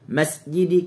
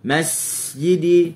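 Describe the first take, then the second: First: The s sound is cut off short. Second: The s sound is held and stretched out. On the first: "masjidi kita potong" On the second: "tambah masjidi, tu kita tunggu"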